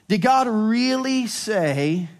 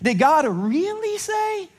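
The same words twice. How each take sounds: First: It is asked as a plain, neutral question. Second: It is asked passive-aggressively, with high-pitched really.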